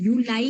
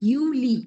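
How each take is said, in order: First: The word ends with an 'eye' vowel. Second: The word ends with an 'ee' vowel. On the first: The speaker calls it wrong. "You ലൈ എന്ന് പറയത്തില്ല നമ്മള്" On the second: The speaker calls it right. "ഐ ആണ് ഇ"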